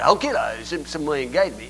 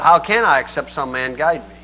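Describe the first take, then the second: First: It is said in an imitated Ethiopian accent. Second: It is said in the speaker's normal voice.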